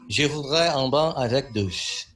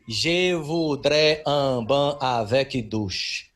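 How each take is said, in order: First: It is said with a native-like French accent. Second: It is said with a heavy foreign accent. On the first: The learners have mastered the pronunciation. The speaker calls it right. "tem dois adolescentes dando um baile na pronúncia do francês" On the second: The learner is a clumsy beginner. The speaker calls it wrong. "E eu repeti depois dela assim: ... Seria como se eu tivesse dito ao menos uma coisa do tipo The book is on the table"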